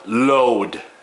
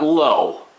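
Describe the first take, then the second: First: The word ends with a clear d sound. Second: The word ends without any d sound. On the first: The speaker calls it right. "load, L O A D" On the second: The speaker calls it wrong. "not low, Everybody pronounces it as if it was low"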